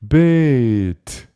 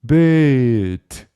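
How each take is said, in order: No difference in how they are said.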